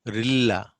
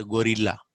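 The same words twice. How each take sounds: First: Gorilla as "g'RIL-la"; punched second syllable in "gorilla"; reduced vowel. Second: Gorilla with a clear "go" first; wrong full vowel. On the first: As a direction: swallow the first vowel of "gorilla". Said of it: "Not gorilla glass". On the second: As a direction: say "gorilla" as "go-rilla". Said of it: "Not gorilla". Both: Shown as a demonstration.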